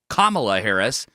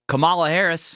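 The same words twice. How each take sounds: First: The first name is pronounced in its usual way. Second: The first name is pronounced in an altered way. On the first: The speaker calls it right. "we know what her name is" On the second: The speaker calls it wrong. "incorrectly say Kamala Harris's name"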